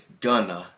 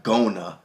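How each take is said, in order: First: "gonna" short and loose as kʌnə; correct gonna. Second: "gonna" slow with a long go-oh vowel, ɡoʊnə; wrong gonna. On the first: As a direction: say "gonna" quick with an uh sound. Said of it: "It's gonna". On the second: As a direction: stretch "gonna" out slowly with a full O. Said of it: "It's not gonna". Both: Shown as a demonstration.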